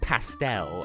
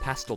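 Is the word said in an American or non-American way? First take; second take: American; non-American. First: The word is said in an American way. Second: The word is said in a non-American way.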